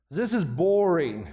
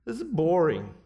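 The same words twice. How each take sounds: First: A drawn-out bored complaint; bored addict. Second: Mock a bored little kid. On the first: Retold or imitated. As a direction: sigh it out, fed up and slow. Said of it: "they just agree to end the intervention". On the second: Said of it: "I hear that from the little kids".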